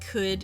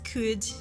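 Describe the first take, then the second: First: The vowel is said without extra lip rounding. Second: The vowel is said with strongly rounded lips.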